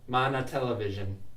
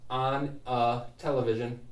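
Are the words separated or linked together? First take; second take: linked; separated. First: The N links into the following vowel. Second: The words are said separately, unlinked. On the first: The speaker calls it right. "I'm going to say mana" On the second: The speaker calls it wrong. "instead of saying"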